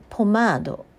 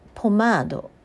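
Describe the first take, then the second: First: It is said as a Japanese word. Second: The same.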